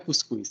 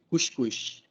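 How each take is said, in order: First: The final s is a plain hissing sound. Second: The final s is a hushing sh sound. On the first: The speaker calls it wrong. "Não é cuscuz" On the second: The speaker calls it right. "é um chiado"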